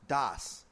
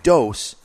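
First: The vowel is an open 'ah' sound. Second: The vowel is a rounded 'oh' sound. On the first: The speaker calls it wrong. "is not pronounced das" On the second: The speaker calls it right. "Like you have taken a dose of medicine"

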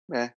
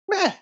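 First: It sounds flat and indifferent. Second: It sounds hopeful and optimistic.

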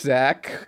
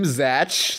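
First: The name ends with a 'k' sound. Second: The name ends with a 'ch' sound. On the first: The speaker calls it right. "Zach and Tara" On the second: The speaker calls it wrong. "I thought it was like Zatch Bell"

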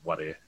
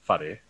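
First: The opening 'wh' is said without an h sound. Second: The opening 'wh' is said with an h sound. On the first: This is how it is said in Whanganui. "they'll obviously be whare" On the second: This is how it is said locally here. "whare here"

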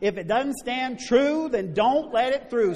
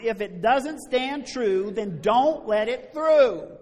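First: The phrase is said in a calm, ordinary way. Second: The phrase is said with strong force and conviction. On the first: "everybody say it with me" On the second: "Say it like you mean it this time"

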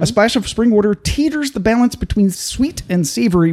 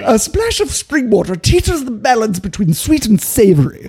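First: It is said in the speaker's plain accent. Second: It is said in a hoity British accent.

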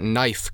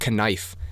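First: The word starts with an N sound. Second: The word starts with a K sound.

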